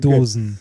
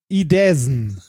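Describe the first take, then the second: First: The second vowel sounds like 'oh'. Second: The second vowel sounds like 'eh'. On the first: The speaker calls it right. "Das spricht man, glaube ich, O aus" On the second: The speaker calls it wrong. "Ich hätte gedacht, es wäre ein Ä"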